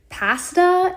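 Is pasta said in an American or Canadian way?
Canadian. It is said with a Canadian pronunciation. This is how the speaker's own group says it. "I get made fun of a lot is for saying pasta"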